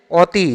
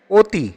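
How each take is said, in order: First: Said in the usual way. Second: "অতি" starting on oh, as oti; closed o pronunciation. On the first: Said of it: "অ উচ্চারণ হবে না". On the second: Shown as a demonstration. Teacher gives the correct answer, "অতি" as oti. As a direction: say "অতি" as oti, not awti. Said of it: "ও উচ্চারণ হবে".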